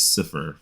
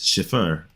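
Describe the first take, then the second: First: The first vowel is a long 'eye' sound. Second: The first vowel is a short 'ih' sound. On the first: The speaker calls it right. "I just pronounce it as Cipher from Lucifer" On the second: The speaker calls it wrong. "I don't pronounce my last name as Schiffer"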